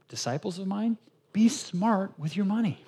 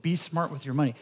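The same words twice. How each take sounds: First: "be smart" stressed, slow and higher; slow emphatic quote. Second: Said in the usual way. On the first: Acted. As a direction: deliver Jesus' words slowly, with weight. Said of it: "Jesus is saying". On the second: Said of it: "how's that for a nice little tweet".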